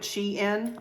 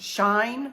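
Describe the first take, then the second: First: It is two syllables, like she plus in. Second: It is one syllable rhyming with fine. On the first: "like she is in this outfit, Shein, like that" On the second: "it actually says that it's pronounced Shine with Google"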